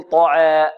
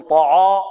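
First: "طعا" with the vowel leaning toward "e"; thin and front the alif in "طعا"; wrong taqlil. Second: "طعا" with a thick, backed vowel after ع; wrong tafkhim. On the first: Teacher warns against tilting, "e"-coloured alif in "طعا". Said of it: "أو يقلل فيقول". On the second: Teacher warns against thickening, heavy ع in "طعا". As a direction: darken the alif in "طعا" toward "aw". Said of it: "يغلظ أو يفخم يقول". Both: Shown as a demonstration.

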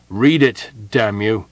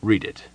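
First: Angry, louder shouted order; loud outburst at a hesitating subordinate. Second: Said in the usual way. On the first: A narrator's reading. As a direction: shout it as an exasperated command. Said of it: "Merin shouted".

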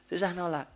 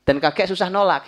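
First: "Susah nolak" repeated high but much softer; soft echo. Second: "susah nolak" said high and loud; emphatic. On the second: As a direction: push "susah nolak" out strongly. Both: Shown as a demonstration.

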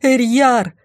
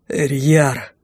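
First: High, urgent call of the name; raised searching cry; shouting for someone. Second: Breathed-out name in a father's relief; understated royal exhale; king exhaling. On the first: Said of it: "снова крикнула". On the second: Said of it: "выдохнул он". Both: A narrator's reading.

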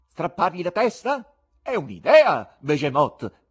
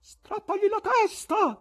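First: Loud, high question turning into a call; shouted. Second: High, loud, slow stern call; severe voice. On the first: Showman to his cat, taking up the suggestion, shouted. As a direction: take up the idea and cry out to an accomplice. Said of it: "gridò al gatto". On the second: Gallery spectator answering what to do with the presenter, severe call. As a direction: hand down a harsh order from the gallery. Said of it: "disse una voce severa dal loggione". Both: A narrator's reading.

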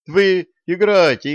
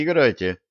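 First: High, loud urging. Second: Said in the usual way. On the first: A narrator's reading. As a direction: push them on loudly. Vitalik waves them on.

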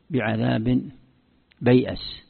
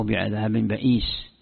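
First: "بيأس" said bay'as, y before hamza; letter order. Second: "بئيس" said ba'iis, hamza first; slow, long ii in "بئيس"; swapped letters. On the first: Teacher shows one reading, "بيأس" as bay'as. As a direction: break "بيأس" as bay-'as. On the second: Teacher shows the other reading, "بئيس" as ba'iis. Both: Shown as a demonstration. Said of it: "هذه تقديم حرف على حرف".

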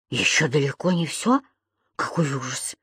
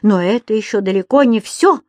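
First: Low, hushed disbelief; quiet dismay, fading away; horrified echo. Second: Emphatic, rising announcement; indignant, forceful statement; angry warning. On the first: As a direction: shrink back and repeat it softly. Lodger echoes her, horrified. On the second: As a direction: warn him there is worse to come. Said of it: "бушевала хозяйка". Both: A narrator's reading.

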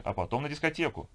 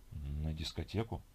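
First: Lightly voiced woman, pitched higher; upbeat announcement. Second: Low, soft, slow question; sluggish questioning echo. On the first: Companion nudging a sleepy man towards the disco, upbeat. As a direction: chirp the plan brightly, voice lifted. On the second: Acted. Sleepy man querying his companion's disco plan, sluggish. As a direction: echo it drowsily, rising at the end.

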